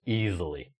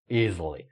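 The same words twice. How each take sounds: The two takes are said the same way.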